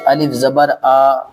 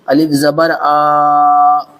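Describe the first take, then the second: First: The final vowel is short and clipped. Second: The final vowel is long and drawn out. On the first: The speaker calls it right. "बस" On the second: The speaker calls it wrong. "ऐसा खींचना नहीं है"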